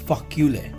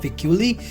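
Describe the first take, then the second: First: The first syllable is said as 'fa'. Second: The first syllable is not said as 'fa'. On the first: The speaker calls it right. "The pronunciation of this in French is fa" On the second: The speaker calls it wrong. "It's not ficuli"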